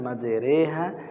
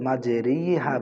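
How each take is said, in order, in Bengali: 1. r-এর পরে 'e' স্বরধ্বনি আছে। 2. r-এর পরে 'i' স্বরধ্বনি আছে। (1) "রি না পড়ে কি পড়তে হয় একার পড়তে হয়" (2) "বলবেন না"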